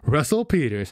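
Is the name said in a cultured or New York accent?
New York. It is said in a casual New York accent. "how they're said in classic New York tongue"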